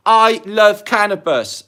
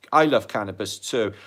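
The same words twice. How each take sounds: First: "I love cannabis" read out loud, high and slow; exclaimed comment. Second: Said in the usual way. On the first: Retold or imitated. Reading a viewer comment aloud, loud and drawn out. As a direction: belt out the viewer's comment with gusto.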